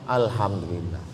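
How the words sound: It is said openly, with relief.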